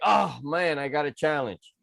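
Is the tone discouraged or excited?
discouraged. It sounds discouraged, as if facing a setback.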